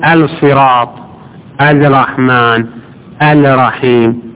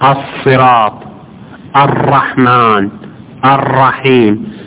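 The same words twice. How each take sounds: First: The l of the article is clearly pronounced. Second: The l of the article is assimilated. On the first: The speaker calls it wrong. "ما تقول الصراط الرحمن الرحيم" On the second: The speaker calls it right. "مثل الصراط الرحمن الرحيم"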